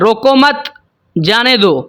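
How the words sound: The pause comes after the word मत.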